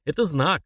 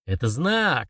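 First: Said in the usual way. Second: Screeched. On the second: A narrator's reading. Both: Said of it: "заверещал Артур".

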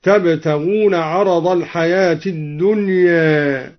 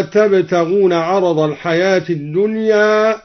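First: الدنيا ending bent halfway from ā toward ē; الدنيا with a light taqlil on its final alif; slight imala. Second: Said in the usual way. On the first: Shown as a demonstration. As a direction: tilt the last vowel of الدنيا slightly toward e. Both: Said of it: "قلل الدوري ألف الدنيا".

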